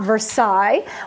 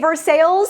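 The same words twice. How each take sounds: First: The name is pronounced in a French way. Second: The name is pronounced in a local American way. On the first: This is how the name is said in France. "and not Versailles" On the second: This is how the town's own residents say it. "why do I say Versailles"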